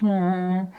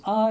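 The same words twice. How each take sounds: First: Loud droning "aah" settling lower; lower-pitched vehicle noise. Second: Short, high "ah" tone; high-pitched vehicle noise. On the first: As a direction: imitate the lower tone of a receding car. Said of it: "goes down to a lower pitch". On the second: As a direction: imitate the high note of an approaching car. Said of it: "it's a high pitch". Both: Shown as a demonstration.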